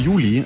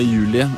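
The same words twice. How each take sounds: First: The name is pronounced with German sounds. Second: The name is pronounced with Norwegian sounds.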